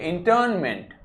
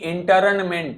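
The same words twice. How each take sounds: First: The r sound is pronounced very lightly. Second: The r sound is pronounced fully and clearly. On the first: The speaker calls it right. "रा को बहुत हल्का से बोलिए" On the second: The speaker calls it wrong. "रा को पूरा नहीं बोलना है, कभी भी इसको ऐसे नहीं बोलेंगे कि"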